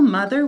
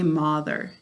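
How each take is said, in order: First: The first vowel sounds like the one in mud. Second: The first vowel sounds like the one in moth. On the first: This is the everyday spoken form. "when we're speaking" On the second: This form helps with spelling the word. "To spell mother, we say mother"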